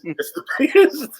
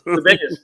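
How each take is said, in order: First: Mock Trump. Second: Said in the usual way. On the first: Shown as a demonstration. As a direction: impersonate a boastful politician.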